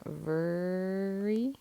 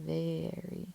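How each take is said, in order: First: "very" misread as "vurr-ee", drawn out; er sound in very. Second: "very" said "vair-ee", slow; long A in very. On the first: Teacher showing how the word isn't said, er sound in "very". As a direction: stretch the first vowel of "very" into "er". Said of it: "first best choice for er, but not very". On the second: Teacher showing the word's actual sound, long A in "very". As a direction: give "very" a long A before the r. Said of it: "kinda sounds like the long A". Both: Shown as a demonstration.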